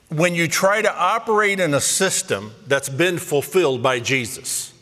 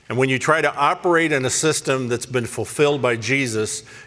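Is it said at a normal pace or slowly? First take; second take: slowly; normal. First: It is said more slowly. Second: It is said at a normal pace.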